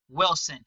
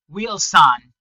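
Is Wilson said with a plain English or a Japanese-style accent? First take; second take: plain English; Japanese-style. First: It is said with a plain English accent. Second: It is said with a Japanese-style accent. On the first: "they never call the person Wilson" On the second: "They always call him Wilson"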